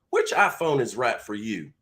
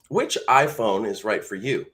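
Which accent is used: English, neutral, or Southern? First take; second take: Southern; neutral. First: It is spoken in a Southern American accent. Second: It is spoken in a plain neutral accent.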